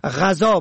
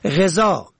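First: غذا said "ghaza"; fatha on first. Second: غذا said "gheza"; short e after gh in غذا; kasra on first. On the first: Teacher shows غذا for "food", pronounced ghaza. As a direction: open a after gh in غذا. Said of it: "به فتح اول". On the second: Teacher shows غذا for "feeding", pronounced gheza. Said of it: "به کسر اول". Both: Shown as a demonstration.

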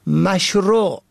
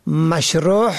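First: Said in the usual way. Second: مشروع ending in a breathed guttural h; mispronounced with he. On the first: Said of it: "که معنای آن آنچه مطابق شرع". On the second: Shown as a demonstration. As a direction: end مشروع on an audible h instead of ain.

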